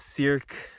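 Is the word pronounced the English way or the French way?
English. The word is pronounced the English way.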